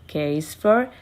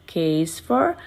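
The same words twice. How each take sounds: The two takes are said the same way.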